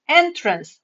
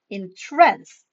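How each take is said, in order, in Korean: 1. 그것은 출입구라는 뜻의 발음입니다. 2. 그것은 도취시킨다는 뜻의 발음입니다. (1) "어떤 출입구, 입구라는 뜻이고요" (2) "발음을 다르게 해서 entrance 음, 라고 하면 도취시키다 라는 뜻이 됩니다"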